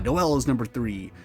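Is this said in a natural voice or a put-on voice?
natural. It is said in the speaker's ordinary voice.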